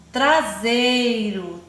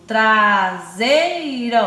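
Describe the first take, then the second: First: Said in the usual way. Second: "traseiro" loud and slow, vowels held together; syllable by syllable. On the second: Shown as a demonstration. Teacher showing vowels share a syllable, "traseiro" syllable by syllable. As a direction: stretch "traseiro" out by sound groups. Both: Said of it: "O mesmo grupo de som".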